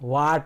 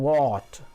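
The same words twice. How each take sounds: First: The vowel is a flat, open 'aa' sound. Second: The vowel is an open, rounded 'aw' sound. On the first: The speaker calls it wrong. "ವಾಟ್ ಅಲ್ಲ ಅದು" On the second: The speaker calls it right. "ಅದು ವಾಟ್"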